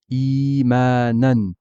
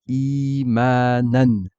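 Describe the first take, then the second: No difference in how they are said.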